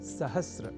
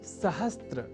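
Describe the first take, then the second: First: The word ends in 'sr' with no 't' sound. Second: The word ends in 'str' with a 't' sound. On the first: The speaker calls it right. "वह शब्द है सहस्र" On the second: The speaker calls it wrong. "सहस्त्र इस रूप में न केवल लिखने की ही बल्कि बोलने की भी प्रवृत्ति या कुप्रवृत्ति"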